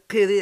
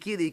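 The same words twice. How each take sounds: First: It starts with a qof consonant. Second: It starts without a qof consonant. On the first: It means my lord. The speaker calls it right. "au lieu de dire Kiri avec le khouf" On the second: It means my slave. The speaker calls it wrong. "elle a dit Kiri, Kiri, c'est un esclave"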